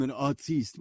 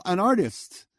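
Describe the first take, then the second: First: "artiste" said ar-TEEST, with stress on the end; pretentious pronunciation. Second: Said in the usual way. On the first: Acted. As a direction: say "artiste" French-style, mock-grand. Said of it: "not to be arrogant about I'm an artiste".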